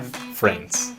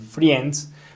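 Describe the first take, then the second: First: No I vowel is sounded in the word. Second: An extra I vowel is sounded in the word. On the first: The speaker calls it right. "acá la I no la vamos a pronunciar" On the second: The speaker calls it wrong. "casi todos cuando están aprendiendo inglés dicen friends, pero no"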